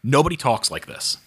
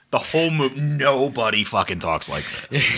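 First: Said in the usual way. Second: "nobody fucking" stressed in disbelief; emphatic exasperation. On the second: Real, not acted. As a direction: hammer home "nobody fucking talks like this". Exasperated repeat with added swearword.

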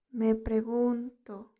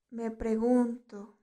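Both takes have the same delivery.

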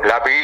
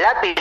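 First: "Lápiz" with a hugely stretched final syllable; drawn-out "Lápiz"; silly pronunciation. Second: Said in the usual way. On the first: Shown as a demonstration. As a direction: hold the i of "Lápiz" long and hiss out the end. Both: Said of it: "Al lápiz le digo".

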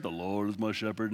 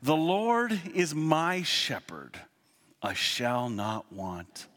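First: Low, flat droning graveside reading; boring monotone minister. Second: Slow, solemn King James reading; reverent scripture reading. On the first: Retold or imitated. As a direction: drone it like a bored minister at a funeral. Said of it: "the guy has a monotone voice". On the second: Shown as a demonstration. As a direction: savor each word of the psalm. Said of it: "you'll love this".

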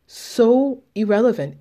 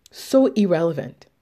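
First: "So irrelevant" pushed higher and louder; emphatic repeat. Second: Said in the usual way. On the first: Real, not acted. Telling viewers others' opinions don't matter, emphatic. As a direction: land "So irrelevant" harder the second time.

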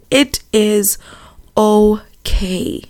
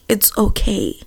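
First: Slow, word-by-word comfort fading into a whisper; tender, spaced-out retelling of gran; deliberate reassurance. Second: Soft, tender retelling of gran's comfort; hushed and soothing; gentle reassurance. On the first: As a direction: let each word land, whispering the last. Repeats gran's comfort slowly for emphasis. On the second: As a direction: reassure gently, dropping the volume. Retells gran comforting her on phone. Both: Retold or imitated.

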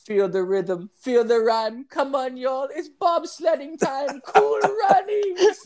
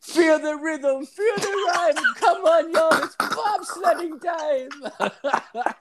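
First: High singsong Jamaican chant; Jamaican accent. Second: High, slow Jamaican singsong chant; Jamaican accent. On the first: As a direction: chant it like a Cool Runnings bobsledder. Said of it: "they'd be like". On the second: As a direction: belt the Cool Runnings chant. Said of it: "it's just like". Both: Retold or imitated.

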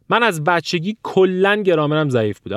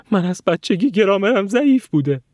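First: Said in the usual way. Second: High, wavering put-on whine; mocking whiny student. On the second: Student repeating an excuse after one mistake, mock whine. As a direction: mimic a self-pitying learner's excuse.

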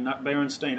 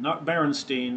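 First: "Berenstain" ending in stain, like a stain. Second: "Berenstein" with three syllables, ending in steen. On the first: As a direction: say "Berenstain" as Beh-ren-stain. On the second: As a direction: say "Berenstein" as Beh-ren-steen. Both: Shown as a demonstration. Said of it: "We called it Bernstein".

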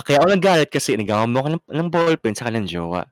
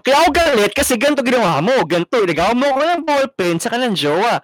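First: Fast, even, plain-pitched retelling; calmer version. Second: High, fast, louder whiny rant; angry complaint. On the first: Friend redoes the complaint the calmer way, quick and level. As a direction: say it straight through without heat. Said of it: "Oh, parang ganito". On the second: Friend shows the wrong way to voice anger, a high fast rant. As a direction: blurt out the grievance in a squeaky rush. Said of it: "Oh, parang". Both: Shown as a demonstration.

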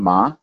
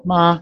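First: "ma" rising like a question; upward, questioning "ma"; second tone. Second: "ma" high and level; sung, even "ma"; first tone. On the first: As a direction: lift "ma" upward at the end. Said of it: "second tone". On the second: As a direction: hold "ma" up high and flat. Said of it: "So first tone". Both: Shown as a demonstration.

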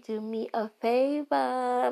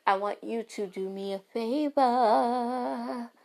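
First: Slow, higher Brooklyn accent on favor. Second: Slow drawn-out Brooklyn accent. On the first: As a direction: lean into the Brooklyn accent, drawn out. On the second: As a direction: stretch it out New York style, higher. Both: Real, not acted. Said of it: "My Brooklyn accent coming back".

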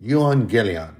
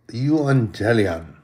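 First: "Euangelion" repeated as yoo-ahn-GIH-lee-on; second take of "Euangelion", quicker; Greek word. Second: "euangelion" said slowly as yoo-ahn-GEH-lee-on; slow careful Greek "euangelion"; Greek word. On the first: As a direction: say "Euangelion" again, at normal pace. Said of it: "That's actually spelled E U A N G E L I O N". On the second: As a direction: spell out "euangelion" syllable by syllable, slowly. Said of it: "And in the Greek, it's". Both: Shown as a demonstration.

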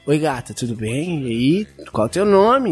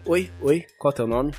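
First: Smooth seductive line. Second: Mumbled, awkward "Oi, oi, qual é o teu nome?"; the flat, timid way not to ask "qual é o teu nome"; a clumsy, offhand hello; wrong way to approach. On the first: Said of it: "ó, o jeito de falar". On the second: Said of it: "Não é assim". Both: Shown as a demonstration.

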